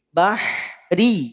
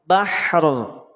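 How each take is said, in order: First: The r is light, with a front vowel. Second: The r is heavy, with the tongue back raised. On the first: The word is read mid-recitation with its vowel. "Ri dibaca tipis" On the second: The reciter stops on this word. "maka huruf ro menjadi teb, tebal"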